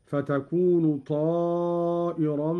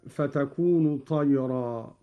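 First: طائرا stretched as ṭāā'iran; long ṭā' with hamza. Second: Said in the usual way. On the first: Shown as a demonstration. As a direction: hold the ā of طائرا long, then hamza with kasra. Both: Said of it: "قرأ قالون بمد الطاء وهمزة".

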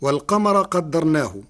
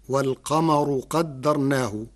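First: والقمر ending walqamara with a; والقمر closed on an a vowel; Hafs reading. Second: والقمر ending walqamaru with u; والقمر closed on a u vowel; Warsh reading. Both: Shown as a demonstration. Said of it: "برفع الراء".

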